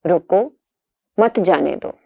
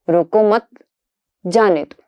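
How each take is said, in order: First: रोको ... मत जाने दो, the break falls right after रोको; pause after रोको. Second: रोको मत said together, then a break before जाने दो; रोको मत ... जाने दो, the pause moves to after मत. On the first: Teacher reading out the punctuation example, pause after रोको. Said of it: "एक प्रसिद्ध उदाहरण". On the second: Teacher showing how the moved comma flips the meaning, pause after मत. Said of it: "केवल कामा के हेरफेर". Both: Shown as a demonstration.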